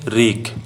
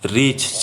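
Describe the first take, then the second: First: The word ends with an aspirated 'kh' sound. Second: The word ends with an aspirated 'ch' sound. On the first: "चाहे" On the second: "अक्ष कर ठाव में छ चाहे ख का प्रयोग होवेला"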